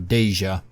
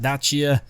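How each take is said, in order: First: It sounds like Asia with a D. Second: It does not sound like Asia with D. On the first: The speaker calls it right. "kind of like Asia, but with a D" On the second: The speaker calls it wrong. "It is not Dacia"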